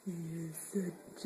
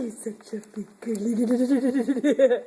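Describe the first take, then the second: First: Whisper. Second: Low slow coo. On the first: Whispered praise to baby. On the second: Cooing praise to baby. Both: Real, not acted.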